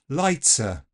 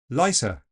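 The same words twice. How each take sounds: First: The T is an affricate with a hiss. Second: The T is replaced by an S sound. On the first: "this affrication" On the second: "swap it completely for a fricative S"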